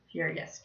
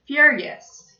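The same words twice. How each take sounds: First: Said in the usual way. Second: "Furious" said clearly and loud, for the class to repeat; teacher modeling "Furious" loudly; model word furious. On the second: Shown as a demonstration. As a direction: say "Furious" boldly so kids echo it. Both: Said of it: "Can everybody say furious?".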